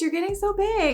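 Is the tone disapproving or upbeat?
upbeat. It is said in a bright, upbeat tone. The remark is friendly and happy. "it wasn't like an upbeat thing. Like, oh my goodness"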